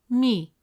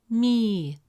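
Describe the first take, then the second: First: The vowel is short. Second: The vowel is long. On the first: "With a short kasra vowel, it sounds" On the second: "With a long vowel ya, it becomes mi, resulting in a long e sound"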